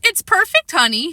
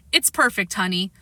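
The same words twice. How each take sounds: First: High childish mock of dad's line; imitating father. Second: Said in the usual way. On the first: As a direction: parrot dad in a little kid's voice. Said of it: "imitating my father".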